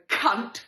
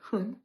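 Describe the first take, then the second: First: The word is shouted loudly. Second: The word is said at normal volume.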